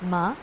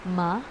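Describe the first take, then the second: First: It is said in the second tone. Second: The same.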